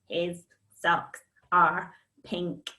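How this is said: The sentence is said in a robot voice. "And robot it"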